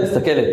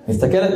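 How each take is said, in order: First: מסתכלת said as a settled statement with a falling end; falling answer. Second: מסתכלת asked with a sharp rising tune, higher; rising question. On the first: Preacher answering his own question, מסתכלת falling and certain. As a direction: drop the tune on מסתכלת, answering firmly. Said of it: "answers his own question". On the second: Preacher asking the congregation about the mother, מסתכלת rising higher. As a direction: lift the end of מסתכלת as a real question. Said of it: "asks then answers himself". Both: Shown as a demonstration.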